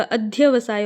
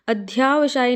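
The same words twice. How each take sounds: First: अध्यवसाय with short "dhya"; correct form demo. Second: अध्यावसाय with long "dhyaa"; wrong form demo. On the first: Teacher corrects it, अध्यवसाय with short middle vowel. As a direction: say अध्यवसाय as "adh-ya-vasaay". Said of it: "होता है". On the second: Teacher shows the mistake, अध्यावसाय with long middle vowel. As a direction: say अध्यावसाय as "adh-yaa-vasaay". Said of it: "नहीं होता". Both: Shown as a demonstration.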